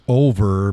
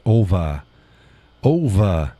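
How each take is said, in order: First: "over" with a clear final R; pronounced R. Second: "ova" for over, ending in "uh"; dropped R. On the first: Quoting how Judy says it, "over" with R. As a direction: sound the R ending "over". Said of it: "Judy says over". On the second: Showing own way of saying over, "ova". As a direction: slowly drop the R: "ova". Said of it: "but I say ova". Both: Shown as a demonstration.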